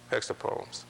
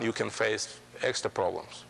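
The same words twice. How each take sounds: First: Whispered echo. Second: Said in the usual way. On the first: Real, not acted. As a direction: whisper the repeat under the breath. Repeats the phrase for emphasis.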